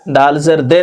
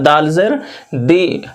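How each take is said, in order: First: The last vowel is a mid 'e' sound. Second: The last vowel is a high 'ee' sound. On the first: The speaker calls it wrong. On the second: The speaker calls it right.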